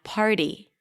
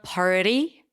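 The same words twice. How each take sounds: First: The middle consonant is a light D. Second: The middle consonant is a full flap. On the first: "just put a very light D there" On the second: "it's not party"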